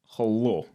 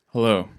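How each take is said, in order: First: It is said in a Russian accent. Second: It is said in his plain accent.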